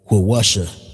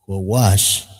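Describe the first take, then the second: First: The word ends with an extra final vowel. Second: The word ends without a final vowel. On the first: The speaker calls it wrong. "you would be like Quawasha. You like that don't sound that don't roll off the tongue" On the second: The speaker calls it right. "when you drop the A, it's making it kind of easier"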